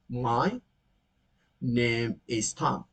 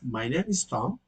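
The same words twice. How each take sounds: First: "Name is" is said as two full words. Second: "Name is" is run together as "name's", quickly.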